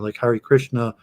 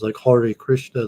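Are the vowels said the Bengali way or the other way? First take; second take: non-Bengali; Bengali. First: The vowels are said in the non-Bengali way. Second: The vowels are said in the Bengali way. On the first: "like I go to the Hare Krishna temple" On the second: "they pronounce the you know the vowels slightly different"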